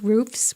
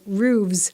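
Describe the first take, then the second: First: It is said with an F sound before S. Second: It is said with a V sound before S. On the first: "roofs with an S" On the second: "roofs with a V E S"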